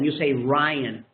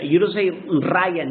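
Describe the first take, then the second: First: The r sounds English-like. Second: The r sounds Spanish-like. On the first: The speaker calls it right. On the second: The speaker calls it wrong.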